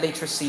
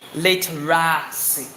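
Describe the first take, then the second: First: The third syllable has a weak, reduced vowel. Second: The third syllable has a full 'late' vowel. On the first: The speaker calls it right. "We said literacy because the A is weak" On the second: The speaker calls it wrong. "we didn't say late, late, literacy"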